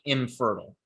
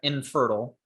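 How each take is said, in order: First: The nasal before f sounds like m. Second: The nasal before f is a plain n. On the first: "it comes out as something like infertile" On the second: "this is supposed to be an N"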